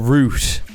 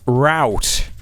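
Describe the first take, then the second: First: It is said with a British pronunciation. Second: It is said with a non-British pronunciation.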